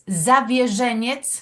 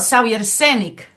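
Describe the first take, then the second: First: The surname is said with Polish sounds. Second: The surname is said with Mexican Spanish sounds. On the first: "la pronunciación polaca" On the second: "la manera, bueno, mexicana"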